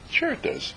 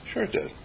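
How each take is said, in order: First: Breathy whispered reassurance; soft whispered certainty. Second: Quietly voiced, barely above a murmur; hushed calm reassurance; soft spoken. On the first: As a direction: breathe it almost soundlessly. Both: Shown as a demonstration. Quiet affirmation, repeated.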